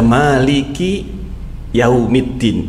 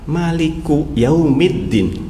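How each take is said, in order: First: The first word ends with an i vowel. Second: The first word ends with a u vowel. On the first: "Ini yang kita baca Maliki di kasrah" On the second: "tanpa di domah ten"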